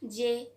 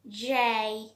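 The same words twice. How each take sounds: First: The letter is said quickly at normal speed. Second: The letter is said slowly with spread lips. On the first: The speaker calls it wrong. "This one is so normal and this doesn't sound so great one" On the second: The speaker calls it right. "So this one also will be so slower one and also the spreaded one"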